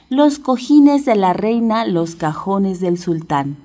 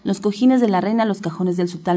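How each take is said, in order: First: It is said quickly, but at the slower pace. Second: It is said even more quickly than before. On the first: "Vamos a tratar de repetirlo rápido, rápido" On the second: "Más rápido"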